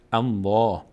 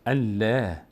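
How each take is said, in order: First: "الله" with a full, dark L and open back "aa"; heavy Allah. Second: "الله" with a thin, clear L and fronted "ae"; light Allah. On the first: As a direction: say "الله" heavy, mouth opening upward. («الله» پر و درشت، دهان رو به بالا) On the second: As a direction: say "الله" thin, mouth opening sideways. («الله» نازک و باریک، دهان از پهلو باز) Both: Shown as a demonstration.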